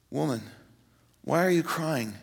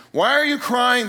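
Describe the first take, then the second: First: Soft, gentle question; hushed tenderness, unforced; very tender. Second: Higher, louder question from the angels; startled questioning. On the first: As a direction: ask it tenderly, with care. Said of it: "Very tenderly". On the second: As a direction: ask it raised and pressing. Angels question the weeping Mary. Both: Acted.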